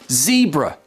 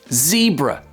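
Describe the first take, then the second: First: It is said with an American pronunciation. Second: The same.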